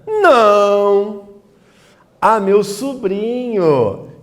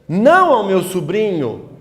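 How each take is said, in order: First: There is a pause after the exclaimed não. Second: It runs on without a pause after não.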